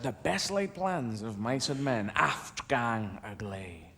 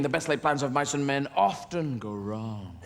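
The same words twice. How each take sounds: First: Low, soft, slow verse recital; hushed, drawn-out poetry quotation; reciting Burns. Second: Said in the usual way. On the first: Acted. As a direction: intone the famous Scots line slowly and softly. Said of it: "one of his most famous lines".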